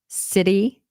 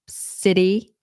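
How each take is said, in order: The two takes are said the same way.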